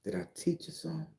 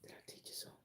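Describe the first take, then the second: First: Said in the usual way. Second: Whisper. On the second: Acted. Teasing question to viewers.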